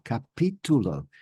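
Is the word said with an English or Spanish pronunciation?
Spanish. It is said with a Spanish pronunciation. The speaker calls it right. "It's capitulo"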